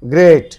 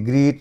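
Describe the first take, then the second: First: The vowel sounds like the one in 'gate'. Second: The vowel sounds like the one in 'feet'. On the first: The speaker calls it right. "এটি হবে গ্রেট" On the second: The speaker calls it wrong. "এটি গ্রিট নয়"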